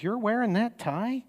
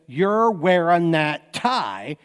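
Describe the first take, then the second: First: Disapproving wife, higher. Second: Approving mom, slow. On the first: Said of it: "your wife says". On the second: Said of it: "your mom says". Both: Shown as a demonstration.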